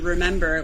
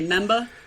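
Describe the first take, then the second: First: The word is said with all three syllables. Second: The first syllable is dropped from the word. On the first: "how does a New York person say remember" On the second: "we say member"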